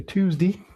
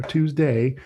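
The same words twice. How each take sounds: First: Tuesday with a higher "dee" ending; regional "Tuesdee". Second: Tuesday ending in a clear "day"; full "day" ending. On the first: Trader contrasting local pronunciations, Tuesday as "Tuesdee". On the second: Trader offering the alternative pronunciation, Tuesday with full "day". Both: Shown as a demonstration. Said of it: "and where you live at".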